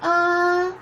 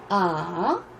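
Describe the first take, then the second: First: The pitch stays high and level. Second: The pitch dips low, then rises.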